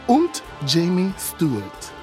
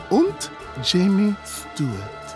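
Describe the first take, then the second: No difference in how they are said.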